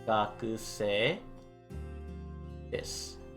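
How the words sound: It sounds soft and polite.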